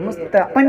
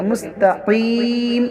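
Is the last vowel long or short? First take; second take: short; long. First: The last vowel is short, not drawn out. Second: The last vowel is drawn out long. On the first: The speaker calls it wrong. "नहीं पढ़ेंगे" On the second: The speaker calls it right. "इस तरह खींच के पढ़ेंगे"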